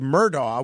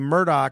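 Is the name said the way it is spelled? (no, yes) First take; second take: yes; no. First: The name is said the way it is spelled. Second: The name is said differently from its spelling. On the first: This pronunciation follows the spelling. "which is clearly how it's spelled" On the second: This is how the name is actually pronounced. "I pronounce his name Murdaugh"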